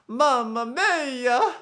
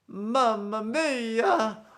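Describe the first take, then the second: First: It is said in an exaggerated character voice. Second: It is said in an exaggerated character voice.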